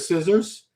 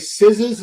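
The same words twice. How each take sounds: First: It is said in a standard accent. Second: It is said in a Boston accent. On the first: "instead of" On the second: "We say scissors"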